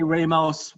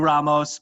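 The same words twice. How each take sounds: First: The name is said with an Americanized pronunciation. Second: The name is said with its original pronunciation. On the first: This is how the family says it day to day. "We say Ramos. We Americanized it" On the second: This is how the name is properly pronounced. "The actual pronunciation should be Ramos"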